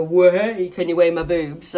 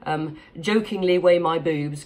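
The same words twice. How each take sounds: First: A loud playful "Whoa" then a teasing ask; jokey mock exclamation. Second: Said in the usual way. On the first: Retelling the boob-weighing joke, mock playful call. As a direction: play it as the old joke between friends, a bit louder. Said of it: "where you go". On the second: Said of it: "that's the joke we used to say".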